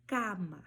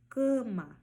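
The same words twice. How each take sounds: First: Cama with open, oral A; Spanish cama. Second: Cama with nasal closed first A; Portuguese cama. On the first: Teacher showing Spanish cama, open A. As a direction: say cama with a clear open A, no nasal. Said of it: "no espanhol eu falo". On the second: Teacher contrasting Portuguese cama, nasalized. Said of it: "No português eu falo cama". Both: Shown as a demonstration.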